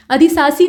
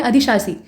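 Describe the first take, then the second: First: अधिशासी with a dull s in shaa; s sounds through अधिशासी; wrong sibilant. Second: अधिशासी with clear sh before aa; sh in the middle of अधिशासी; sh sound. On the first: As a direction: say अधिशासी as adhi-saa-see. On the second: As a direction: say अधिशासी as adhi-shaa-see. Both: Shown as a demonstration. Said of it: "सामान्य श इस्तेमाल करते हैं".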